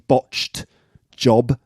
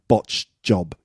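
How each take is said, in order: First: The ed sound at the word's end is clear. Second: The ed sound at the word's end is dropped. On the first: "I think it's actually botched job" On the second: "it sounds like botched job"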